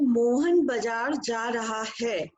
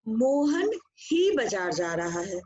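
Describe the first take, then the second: First: Said in the usual way. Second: Mohan ही said slowly with the weight on Mohan; stress on Mohan ही. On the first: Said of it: "तो मैं एक बात कहूँ". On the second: Shown as a demonstration. Teacher showing the class the stress on Mohan ही. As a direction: lean on Mohan ही to single Mohan out. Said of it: "Mohan शब्द पे बल दिया".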